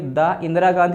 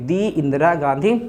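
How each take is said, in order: First: The article is said with a short 'thuh' sound. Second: The article is said with a long 'thee' sound. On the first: The speaker calls it wrong. "द Indira Gandhi नहीं" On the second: The speaker calls it right. "बल्कि क्या बोलेंगे, दी"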